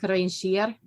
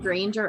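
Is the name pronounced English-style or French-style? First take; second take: French-style; English-style. First: The name is pronounced in a French style. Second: The name is pronounced in an English style. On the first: This is how the audiobook narrator says it. "in the audiobook she was calling him Granger" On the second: This is the speaker's own habitual way of saying it. "I think I was saying Granger earlier"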